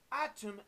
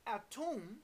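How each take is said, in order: First: Said in the usual way. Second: Atom said as a-TOOM; variant pronunciation of atom. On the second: Shown as a demonstration. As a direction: stress atom's second syllable, with an oo. Word given in two pronunciations.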